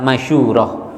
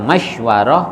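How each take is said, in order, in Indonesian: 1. Bunyi u panjang mengikuti bunyi sh. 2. Bunyi w mengikuti bunyi sh. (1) "boleh dibaca masyurah" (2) "boleh dibaca masywarah"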